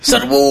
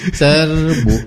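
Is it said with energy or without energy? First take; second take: with energy; without energy. First: It is shouted with fiery enthusiasm. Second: It is said limply, without enthusiasm.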